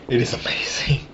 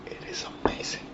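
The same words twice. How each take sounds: First: Quieter whispered repeat; soft whisper. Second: Whispered in awe; whispering. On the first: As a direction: say it softly again, still amazed. Savoring beer, repeated. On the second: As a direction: breathe it out, amazed. Savoring beer, hushed. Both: Real, not acted.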